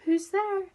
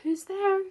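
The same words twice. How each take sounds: First: High squeaky repeat, a little louder; the small sad voice asks again. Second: High, small and squeaky, a little sad. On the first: Someone behind the red door asks again, squeaky and sad. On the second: Lonely figure behind the door calls out, sad and squeaky. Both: A narrator's reading. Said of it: "a sad, squeaky sort of voice".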